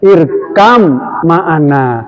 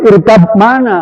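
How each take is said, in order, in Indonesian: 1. Bunyi b menyatu menjadi m ganda. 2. Kedua kata tetap terpisah, tidak digabung. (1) "Bacanya irkam ma'ana" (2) "Nggak boleh dibaca irkam mana, nggak boleh"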